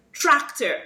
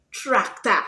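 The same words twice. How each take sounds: First: Said in the usual way. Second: "tractor" ending in an open A; Creolese pronunciation. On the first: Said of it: "replace the sound with". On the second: Shown as a demonstration. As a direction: say "tractor" as track-tah. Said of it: "So you just say".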